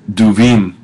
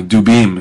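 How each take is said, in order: First: "duvim" with a v in the middle; pronunciation slip. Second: "dubim" with a b in the middle; corrected pronunciation. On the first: Teacher misreading a Hebrew plural for students, mispronounced with v. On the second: Teacher correcting a Hebrew plural for students, pronounced with b. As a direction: say "dubim", hard b opening the second syllable. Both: Real, not acted. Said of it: "excuse me".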